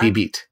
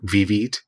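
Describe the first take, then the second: First: The word starts with a B sound. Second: The word starts with a V sound. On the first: This is how Japanese speakers say the name. "in Japanese it's Bibit" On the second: This is the English spelling of the name. "on Google Maps in English, it's Vivid"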